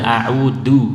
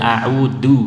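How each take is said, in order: First: The middle consonant is a stopped d sound. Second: The middle consonant is a stopped d sound.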